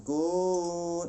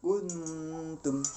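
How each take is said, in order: First: "kun" higher and louder, drawn out far too long; overlong ghunnah. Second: "Kuntum" higher, n hummed just long enough; measured ghunnah length. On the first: Teacher warns against excess length, "kun" held too long. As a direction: overstretch the sound of "kun" in a sustained chant. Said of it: "Nah, itu kepanjangan". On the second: Teacher shows sufficient length, "Kuntum" with measured ghunnah. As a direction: hold the n of "Kuntum" briefly as a hum, then release tum. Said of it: "bacaan jangan terlalu panjang ya, cukup". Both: Shown as a demonstration.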